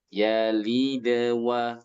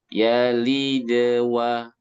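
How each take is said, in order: First: The sound flows lightly into the next word. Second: The same.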